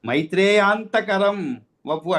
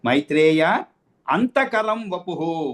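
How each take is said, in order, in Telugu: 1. మైత్రేయ విరామం లేకుండా నేరుగా antakaram లోకి వెళ్తాడు. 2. మైత్రేయ తర్వాత విరామం ఉంది. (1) "అట్లా చదవకూడదు" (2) "మైత్రేయ అని నిలిపేయాలి అక్కడ"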